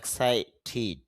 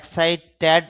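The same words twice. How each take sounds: First: The last syllable ends with a short 'i' vowel. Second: The last syllable ends with an 'e' vowel. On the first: The speaker calls it right. "শুদ্ধ উচ্চারণটা হবে এক্সাইটেড" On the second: The speaker calls it wrong. "যদিও আমরা এক্সাইটেড বলি"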